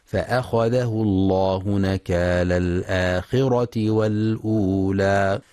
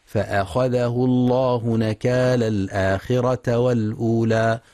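First: فأخذه الله نكال الآخرة with a kasra on the taa, al-akhirati; الآخرة read correctly with kasra. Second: فأخذه الله نكال الآخرة with the final taa wrongly given fatha, al-akhirata; الآخرة read with a wrong a on the taa. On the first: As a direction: recite الآخرة with an i ending, the right way. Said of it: "والصواب جرها". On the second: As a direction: recite الآخرة with a fatha, the mistake. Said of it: "فيقرأ خطأ". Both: Shown as a demonstration.

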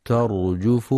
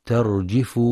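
First: ترجف with the jim given a damma, terjuf; correct reading. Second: ترجف with the jim given a kasra, terjif; wrong reading. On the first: Teacher stressing the right vowel, ترجف with damma. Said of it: "ينتبه القارئ في كلمة ترجف لضم الجيم". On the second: Teacher showing the mistake, ترجف with kasra. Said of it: "حيث يخطئ بعضهم فيقرأ ترجف بكسر الجيم". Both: Shown as a demonstration.

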